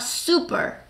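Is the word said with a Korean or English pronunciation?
English. It is said with an English pronunciation. The speaker calls it right.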